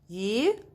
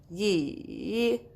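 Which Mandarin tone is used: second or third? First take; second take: second; third. First: It is said with the rising second tone. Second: It is said with the third tone. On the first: "go up with your voice" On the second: "Third one"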